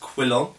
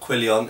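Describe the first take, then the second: First: No extra 'ee' sound comes before the last syllable. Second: An extra 'ee' sound comes before the last syllable. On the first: The speaker calls it right. "it's quillon" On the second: The speaker calls it wrong. "lots of English people annoyingly say quillion. It is not quillion"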